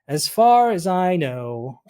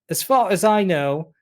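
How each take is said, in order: First: It is said in the speaker's normal accent. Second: It is said in a put-on British accent.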